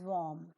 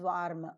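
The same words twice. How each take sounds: First: The r sound is silent in the word. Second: The r sound is pronounced in the word. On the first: "the R P pronunciation is warm" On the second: "Normal Indian pronunciation is warm"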